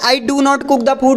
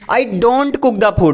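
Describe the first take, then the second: First: Do not is said as two full words. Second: Do not is contracted into one syllable. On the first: The speaker calls it wrong. "मत बोलो" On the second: The speaker calls it right. "बोलो"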